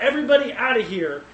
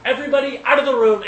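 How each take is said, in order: First: Mild mock outcry, a bit higher and louder; a touch of a ruler crying out to clear the room; retold cry out. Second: Fast, much higher and louder shout; a ruler shouting everyone out before he breaks down; commanding shout. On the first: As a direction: call the room clear, half-acted. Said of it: "he just cries out". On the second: Retold or imitated. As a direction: bark the order to empty the room at once. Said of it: "and he's like".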